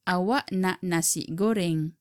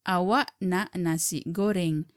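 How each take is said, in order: The two takes are said the same way.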